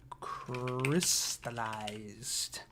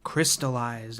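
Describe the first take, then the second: First: Very slow, stretched CRYSTALLIZED, softly; drawn-out word. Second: Said in the usual way. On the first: Real, not acted. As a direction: say it slowly as if writing it down. Repeats word while writing it down.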